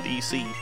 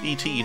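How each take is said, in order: First: The word ends with a k sound. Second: The word ends with a t sound. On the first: The speaker calls it wrong. "not ec" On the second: The speaker calls it right. "it's et"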